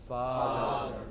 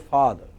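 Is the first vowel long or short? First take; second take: long; short. First: The first vowel is long. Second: The first vowel is short. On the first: "In English pronunciation this is father" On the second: "at home, you know, we don't say father, we say father"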